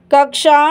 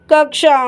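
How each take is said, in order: Both takes have the same delivery.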